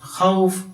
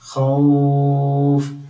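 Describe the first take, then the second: First: The vowel before the final consonant is short. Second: The vowel before the final consonant is lengthened. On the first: The speaker calls it wrong. "ഇങ്ങനെ നിർത്തരുത്" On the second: The speaker calls it right. "ഇങ്ങനെ നീട്ടി നിർത്തുന്ന"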